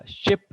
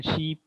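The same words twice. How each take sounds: First: "ship" with a short i; short vowel. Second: "sheep" with a long ee; long vowel. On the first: Teacher contrasting similar words, short-vowel "ship". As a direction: keep the vowel in "ship" brief. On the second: Teacher contrasting similar words, long-vowel "sheep". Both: Shown as a demonstration. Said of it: "there's a difference".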